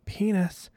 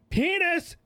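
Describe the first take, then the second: First: It is said somewhat louder. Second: It is said loudest of all.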